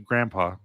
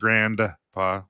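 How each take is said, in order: First: The word is said without the D sound. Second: The word is said with the D sound. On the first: "I guess I don't use the D" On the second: "instead of"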